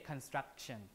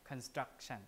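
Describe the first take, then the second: No difference in how they are said.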